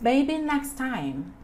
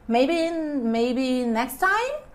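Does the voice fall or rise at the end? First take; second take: falls; rises. First: The voice falls at the end. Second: The voice rises at the end. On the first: The speaker is stating it. "it's not only like a statement" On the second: The speaker is asking. "you can also sound like a question"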